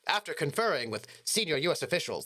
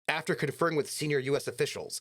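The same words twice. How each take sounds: First: It is read in a put-on newscaster voice. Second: It is read in a plain, ordinary voice.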